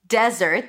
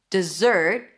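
First: The stress is on the first syllable. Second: The stress is on the second syllable. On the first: It is a noun: a dry, sandy place. "desert, stress on the first syllable. Desert, that's the place" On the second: It is a verb: to leave someone or something. "dessert, stress on the second syllable, is the verb to desert"

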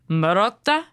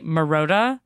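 First: It is said with an Italian accent. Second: It is said with an American accent.

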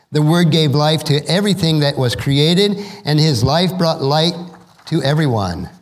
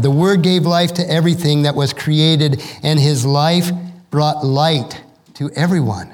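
Both takes have the same delivery.

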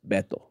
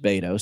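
First: The name is said with a Spanish accent. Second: The name is said with a Texan accent.

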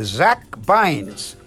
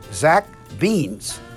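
First: The surname does not rhyme with beans. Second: The surname rhymes with beans. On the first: The speaker calls it wrong. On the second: The speaker calls it right.

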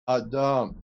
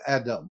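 First: The name has a Hebrew pronunciation. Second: The name has its usual English pronunciation. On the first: The speaker calls it right. "what the Hebrews call Adam" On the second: The speaker calls it wrong. "not Adam"

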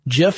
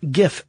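First: It begins with a soft j sound. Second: It begins with a hard g sound. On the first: It sounds like the name of a peanut butter brand. The speaker calls it wrong. "GIF is a peanut butter" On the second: It matches the start of the word graphic. The speaker calls it right. "GIF graphic. It makes sense"

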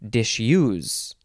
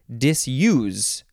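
First: The middle consonant is an sh sound. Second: The middle consonant is an s sound.

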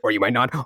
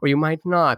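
First: The phrase is spoken quickly. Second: The phrase is spoken slowly. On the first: "they speak really fast" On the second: "and then they speak slow"

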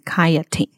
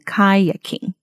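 First: A t sound comes before the -ing ending. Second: A k sound comes before the -ing ending. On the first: The speaker calls it wrong. "所以把K 念成T 的音" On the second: The speaker calls it right. "应该是要念成kayaking"

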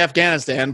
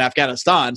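First: It is said with an American pronunciation. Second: It is said the way locals pronounce it.

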